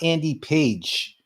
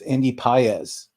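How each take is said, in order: First: The surname is said like the word 'page'. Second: The surname is said in two syllables, 'pah-ez'. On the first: The speaker calls it wrong. "Is is not Andy Page" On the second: The speaker calls it right. "It's it's Andy Paez. ... I said it right"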